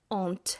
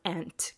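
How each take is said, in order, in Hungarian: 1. Brit akcentussal hangzik el. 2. Amerikai akcentussal hangzik el. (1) "a brit angol kiejtésű aunt" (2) "az amerikai angol aunt kiejtéssel"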